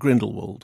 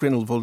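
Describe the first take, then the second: First: The last part begins with a W sound. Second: The last part begins with a V sound. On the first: "I think I'm a W rather than a V" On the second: "So you've gone for the V now"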